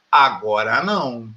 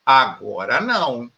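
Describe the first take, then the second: No difference in how they are said.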